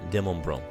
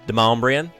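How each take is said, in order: First: The name is said with a French-style pronunciation. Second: The name is said with the local pronunciation. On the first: This follows the name's French origin. "French origin" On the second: This is how the locals say it. "You know how they say it?"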